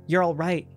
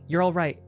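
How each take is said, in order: First: Soothing, louder and higher; calm the crying twins; insistent comfort, lifted; reassuring. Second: Gentle falling comfort; tender, falling close; softer reassurance. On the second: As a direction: settle the girls softly. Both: A narrator's reading. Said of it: "he heard her whisper to them".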